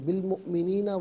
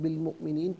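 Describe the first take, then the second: First: The word ends with a final vowel. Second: The word ends on a consonant. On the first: Reading continues without stopping. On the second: Reading stops at this word.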